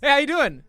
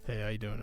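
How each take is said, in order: First: It is said in an energetic, wide-awake voice. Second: It is said in a low-energy, sleepy voice.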